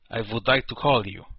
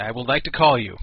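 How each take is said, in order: First: A light put-on Russian accent, half-joking; mock Russian accent. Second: Said in the usual way. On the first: Radio host reading his Russian guest's chat message, in a mock Russian accent. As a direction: reread the chat line in a slightly hammed-up Russian accent. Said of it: "type in a Russian accent". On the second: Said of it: "I wish I could, like, type in a Russian accent".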